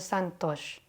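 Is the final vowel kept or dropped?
dropped. The final vowel is cut off, northern Indian style.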